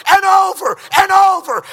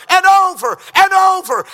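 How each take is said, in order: Both takes have the same delivery.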